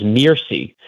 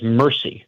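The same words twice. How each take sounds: First: Mercy said as "MEER-see"; long "ee" in the first syllable of Mercy; original pronunciation of Mercy. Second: Said in the usual way. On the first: Shown as a demonstration. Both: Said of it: "I always heard it as Mercy".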